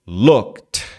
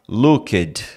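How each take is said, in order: First: The ending sounds like a T. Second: The ending sounds like a D. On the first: The speaker calls it right. "vão ter som de T e não de D" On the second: The speaker calls it wrong. "você não vai falar looked"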